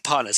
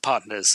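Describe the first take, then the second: First: It is said in a lively, enthusiastic way. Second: It is said in a flat, deadpan way. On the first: The job is treated as light fun. "He doesn't go like" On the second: The job is treated as serious work. "It's done in a more deadpan way"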